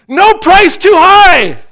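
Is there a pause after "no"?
no. It runs on with no break after "no".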